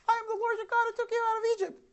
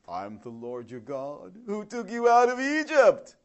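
First: It is said in a Mickey Mouse voice. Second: It is said like a used car salesman.

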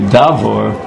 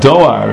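First: The word has a 'v' sound in the middle. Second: The word has no 'v' sound in the middle. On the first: The speaker calls it right. "we should pronounce it the right way, davor" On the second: The speaker calls it wrong. "the word doar here"

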